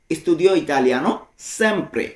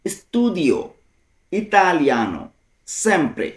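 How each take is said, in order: First: Said in the usual way. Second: "Studio ... italiano ... sempre", each word set apart. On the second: Shown as a demonstration. Teacher translating always studying Italian, word by word. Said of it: "ভেঙে ভেঙে".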